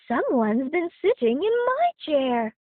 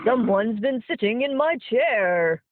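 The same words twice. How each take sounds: First: It is said in a plain voice. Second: It is said in a growling voice.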